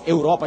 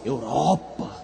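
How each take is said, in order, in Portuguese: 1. A palavra é dita de forma simples e comum. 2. A palavra é dita com admiração e reverência. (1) "a gente não diz Europa" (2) "a gente diz Europa"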